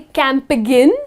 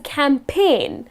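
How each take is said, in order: First: The G sound is pronounced in the word. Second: The G sound is left out of the word. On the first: The speaker calls it wrong. "That's the incorrect pronunciation" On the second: The speaker calls it right. "or it's a campaign"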